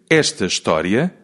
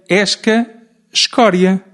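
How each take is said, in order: First: The consonant after the s is a t. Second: The consonant after the s is a k. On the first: The speaker calls it right. "em vez de dizer esta história" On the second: The speaker calls it wrong. "dizia esca escória"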